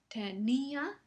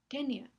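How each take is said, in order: First: The i and a are in separate syllables. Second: The i and a share one syllable. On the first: It is the past tense of the verb. "ese es el hiato" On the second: It names a tapeworm. "forma un diptongo con la siguiente a"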